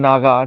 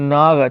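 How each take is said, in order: First: The name ends with a final 'a' vowel. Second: The name ends on the consonant 'g'. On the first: The speaker calls it wrong. "নাগা বলে কিন্তু কেউ নেই" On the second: The speaker calls it right. "নাগ আছে"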